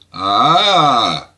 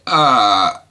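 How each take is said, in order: First: The vowel's pitch dips and curves back up. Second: The vowel is held on a level pitch. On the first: "Dá a noção da curvatura" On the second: "o A com uma linha em cima"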